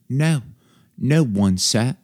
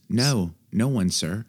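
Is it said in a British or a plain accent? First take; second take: British; plain. First: It is said in a British accent. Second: It is said in the speaker's usual accent.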